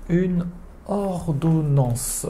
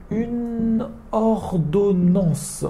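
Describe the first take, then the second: First: "Une ordonnance" repeated slowly; slow repetition. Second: Slow, careful "une ordonnance"; slow model word. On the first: A teacher repeats "Une ordonnance" for students. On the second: A teacher introduces "une ordonnance" slowly to students. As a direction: draw out "une ordonnance" for learners. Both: Shown as a demonstration. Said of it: "Après".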